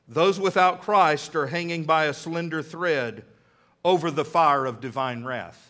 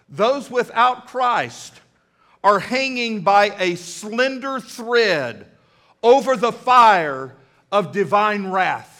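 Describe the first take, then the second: First: It is delivered flatly, as if simply read. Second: It is delivered with lively, enthusiastic energy. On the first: "He just read it" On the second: "I said it with a little more enthusiasm than he said it"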